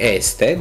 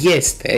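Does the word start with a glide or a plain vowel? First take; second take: plain vowel; glide. First: It starts with a plain e vowel. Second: It starts with a y-like glide before e. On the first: "Se scrie este" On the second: "dar se citește este, iar acolo avem un diftong"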